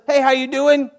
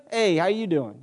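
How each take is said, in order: First: Said in the usual way. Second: New York style. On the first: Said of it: "Someone says". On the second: Acted. Preacher acts out returning someone's greeting, in New York style. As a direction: answer back in a light New York accent. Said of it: "I gotta go New York style".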